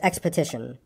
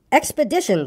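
First: "expedition" said as "expotition"; mispronounced expedition. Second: "Expedition" with a clear D, "ex-pe-DI-tion"; higher, correcting "Expedition", with a D rather than T; corrected expedition. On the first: Pooh asking where they go, "expedition" mispronounced as "expotition". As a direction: say "expedition" with a T, like "expo-tition". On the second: Christopher Robin correcting silly old bear, "Expedition" said with a D. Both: A narrator's reading. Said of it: "It's got an X in it".

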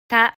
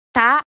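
First: た with a light, quick "t" and a clear vowel; light consonant. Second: た with an exaggerated, forceful "t" burst; over-strong consonant. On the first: Teacher leading learners once more, light natural t in た. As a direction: keep the consonant of た small and let the vowel sound clearly. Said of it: "軽く速く". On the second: Teacher showing learners the unnatural way, over-strong t in た. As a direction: hit the consonant of た too hard, unnaturally. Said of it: "子音を強く発音しすぎると". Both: Shown as a demonstration.

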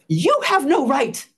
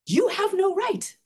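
First: Loud, stern, slow finger-wagging rebuke; angry scolding stranger. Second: Much higher, slow, disbelieving repeat; incredulous echo. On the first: Stranger scolds her over her post, loud and stern. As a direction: tell her off hard, word by word. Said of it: "And he says". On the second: Echoing the stranger's scolding back in high disbelief. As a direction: throw his words back in shock. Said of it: "I'm like". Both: Retold or imitated.

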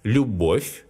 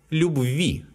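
First: Любовь stressed on its second syllable, бовь. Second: Любви stressed on the final ви; stress on ending. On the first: Teacher showing a vowel loss, Любовь stressed on бовь. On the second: Teacher showing a stress change, любви stressed on its ending ви. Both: Shown as a demonstration. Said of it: "changes the stress".

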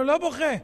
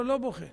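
First: Defiant louder refusal. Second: Said in the usual way. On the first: Acted. Murderer refuses again, defiantly.

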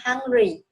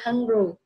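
First: "hungry" ending in ee, "hung-ree"; correct final Y. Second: "hungry" ending in oo, "hung-roo"; read with final U. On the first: Teacher correcting child, "hungry" pronounced hung-ree. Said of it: "Và chúng ta là". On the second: Teacher showing child what U gives, "hungry" as hung-roo. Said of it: "chữ U thì cô sẽ đọc là". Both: Shown as a demonstration.

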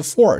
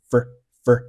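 First: Said in the usual way. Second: "for" shortened to "fur"; reduced form. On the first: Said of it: "介词for是做了缩读". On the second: Shown as a demonstration. Teacher shows learners "for" reduced to a weak "fur". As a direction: shrink the vowel of "for" to a quick schwa. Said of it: "for是做了缩读".

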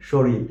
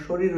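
First: শরীর pronounced as shoril, ending in an l; everyday easier form of শরীর, final r softened to l; colloquial sound change. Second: Said in the usual way. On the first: Shown as a demonstration. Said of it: "আমরা উচ্চারণ করি". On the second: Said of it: "শরীর উচ্চারণ করি না".

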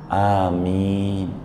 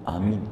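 First: "Amin" with a long drawn a and a long i, falling at the end; long-vowel amin. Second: "amin" said quickly, with short a and short i, nearly like aman; short-vowel amin. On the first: Preacher shows congregation the right long "Amin". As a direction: stretch both vowels of "Amin" slowly. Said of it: "A dua, I dua". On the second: Preacher shows congregation the wrong short "amin". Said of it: "Kalau i-nya satu". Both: Shown as a demonstration.

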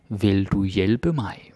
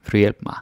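First: Slow. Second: "Vil du hjælpe mig" said fast with "mig" barely said; native speed. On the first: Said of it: "because I say it fast". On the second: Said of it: "because I say it fast, I say it native speed". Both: Shown as a demonstration.

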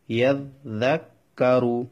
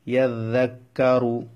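First: "ইয়াজ্জাক্কারু" split with gaps at the doubled consonants; broken into syllables. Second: Said in the usual way. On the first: Shown as a demonstration. Teacher shows students the doubling, "ইয়াজ্জাক্কারু" broken into separate parts. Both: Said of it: "দুইবার উচ্চারণ হবে দালটা".

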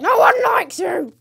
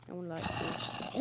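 First: High, loud, slow yelled jeer; shouted taunt. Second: Low, slow muttered jeer; muttered taunt. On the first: Gamer yelling at a mob in mock anger. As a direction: yell it at the mob. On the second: Gamer taunting a mob, muttered low. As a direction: mutter it under your breath. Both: Acted.

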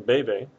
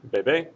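First: Bebe said BE-be, stress on the first syllable. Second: Bebe said be-BE, stress on the last syllable, rising; final-syllable stress. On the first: Teacher showing the verb form bebe, stress on BE. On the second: Teacher showing the noun bebé, stress on the final BE. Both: Shown as a demonstration. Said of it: "the stress of the word moves".

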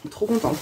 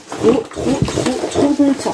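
First: Said in the usual way. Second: Gushing delight. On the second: Real, not acted. Gushing over the gift box.

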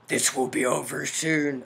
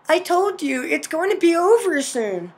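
First: Deep mystery voice. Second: Higher female character voice; mother character. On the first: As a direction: sound like a hidden villain, deep in the throat. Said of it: "mystery voice". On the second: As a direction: voice the mother lightly and high, far from a villain's growl. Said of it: "that was Mother talking". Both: Acted.

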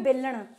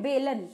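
First: "बेलन" said the Haryanvi way, ending in retroflex "ṇ"; Haryanvi-style "बेलन" with a hard "ṇ" ending; Haryanvi pronunciation. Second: Said in the usual way. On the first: Shown as a demonstration. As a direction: curl the tongue back on the final "न" of "बेलन". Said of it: "Haryanvi में बेलन". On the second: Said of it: "normal हम भाषा में क्या बोलते हैं".

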